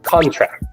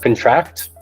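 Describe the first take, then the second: First: The stress is on the first syllable. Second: The stress is on the second syllable. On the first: It is a noun, a signed document. "Contract has the emphasis placed on the front of this word" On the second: It is a verb, to catch an illness. "for the verbs, ... the emphasis is placed on the second part"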